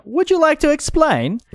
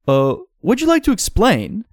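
First: Very high character voice; the other guy. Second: Moderately high character voice; wrong character's voice. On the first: The other guy asking for explanation, very high voice. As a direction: pitch the question way up, in character. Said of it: "that's the other guy". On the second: Asking visitors for an explanation, moderately high character voice. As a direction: ask it in a raised put-on voice. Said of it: "no, that's the other guy". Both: Acted.

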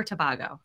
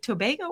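First: Tobago said tuh-BAH-go; broad-A pronunciation. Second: Tobago said toh-BAY-go; long-A pronunciation. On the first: Host offering the other option, Tobago as tuh-BAH-go. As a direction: say Tobago with a stressed BAH in the middle. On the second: Host checking the island's name, Tobago as toh-BAY-go. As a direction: say Tobago with a stressed BAY in the middle. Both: Shown as a demonstration. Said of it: "is it Tobago or Tobago?".

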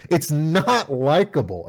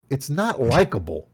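First: "not" hit higher and louder, slower; stress on not. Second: Said in the usual way. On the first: Real, not acted. Podcaster repeating his complaint, slow and emphatic on "not". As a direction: lean hard on "not" in "It's not likable.".

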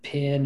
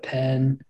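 First: "pin" for pen, with a short I; "pin", vowel as in sit; Southern vowel swap. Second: Said in the usual way. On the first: Shown as a demonstration. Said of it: "they just mix the I's and the E's up". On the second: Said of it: "instead of".

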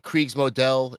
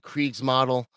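First: Kriegsmodell said "kreegs-moh-DELL"; German-style pronunciation. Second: Kriegsmodel said "kreegs-MAH-dul"; English-style pronunciation. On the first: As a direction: say Kriegsmodell with a long O and a clear "dell" ending. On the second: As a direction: say Kriegsmodel ending like English "model". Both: Shown as a demonstration. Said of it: "I've been debating, is it".

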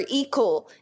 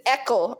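First: "Ekel" starting with a long "ee"; "Ekel" rhyming with "equal". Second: "Ekel" starting with a short "eh"; "Ekel" opening like the start of "echo". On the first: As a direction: say "Ekel" as "EE-kul". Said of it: "That actually sounds awesome". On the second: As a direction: say "Ekel" as "ECK-ul". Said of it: "or Ekel". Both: Shown as a demonstration.

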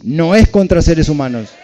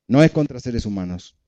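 First: Louder and higher, a preacher's emphatic call; proclaimed loudly. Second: Said in the usual way. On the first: Shown as a demonstration. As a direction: lift it up and proclaim it to the room. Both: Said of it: "Decí".

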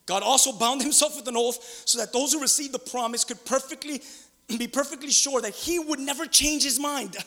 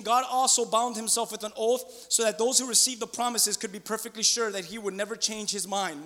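First: Forceful reading, NEVER CHANGE HIS MIND driven home; emphatic verse rereading. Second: Said in the usual way. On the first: Real, not acted. Preacher rereads the verse to the congregation, emphatically.

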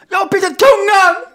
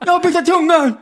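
First: Screamed high through a swollen tongue; exasperated garbled shout. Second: High, loud garbled repeat; swollen-tongue speech. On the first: Man finally yelling it at his friend, desperate garbled shout. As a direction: yell it desperately, every word mushy. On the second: Man repeating it to his uncomprehending friend, distressed garble. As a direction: plead to be understood, tongue swollen. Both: Retold or imitated. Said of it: "Så jag kan ju inte prata".

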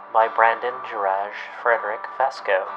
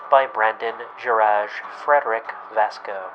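The two takes are said the same way.

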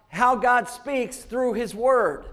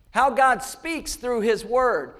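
The two takes are said the same way.

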